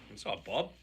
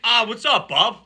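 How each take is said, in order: First: It is said in a flat, low-energy way. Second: It is said with more excitement and energy.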